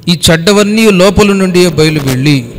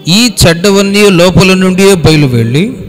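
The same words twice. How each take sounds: The two takes are said the same way.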